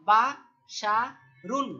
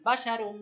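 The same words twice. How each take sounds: First: বাশারুন drawn out very slowly and loud; teacher modelling বাশারুন slowly; slow model word. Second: Said in the usual way. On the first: Shown as a demonstration. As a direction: stretch বাশারুন for learners. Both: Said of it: "কি উচ্চারণ?".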